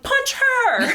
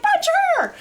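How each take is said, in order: First: High, loud egging-on yell; mock shout. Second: Very high yell breaking into laughter; laughing mock shout. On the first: Shirley MacLaine eggs on a friend at the funeral, high mock shout. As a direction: bark it like urging a fight. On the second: Retelling the funeral gag, yelled high through laughter. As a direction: shout it again, cracking up. Repeated quote while laughing.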